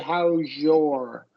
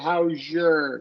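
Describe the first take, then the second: First: 'Your' has a full vowel before the R. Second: 'Your' is reduced to a schwa before the R. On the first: "So you're doing it with the O R combination" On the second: "schwa R"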